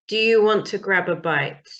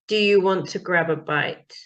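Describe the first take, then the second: No difference in how they are said.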